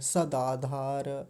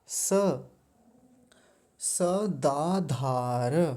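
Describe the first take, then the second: First: The first s is halved and merged into the next. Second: Sa is said as its own separate syllable. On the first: The speaker calls it wrong. "ऐसे जोड़ देते हैं और स को भी आधा बना देते हैं" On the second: The speaker calls it right. "स को अलग करेंगे"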